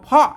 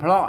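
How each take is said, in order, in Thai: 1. คำนี้ขึ้นต้นด้วยเสียง p ธรรมดา 2. คำนี้ขึ้นต้นด้วยเสียงควบ p-r (1) "ภาษาละนาเปิ้นอ่านว่าเพาะนะครับ" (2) "ไม่ใช่เพราะนะครับ"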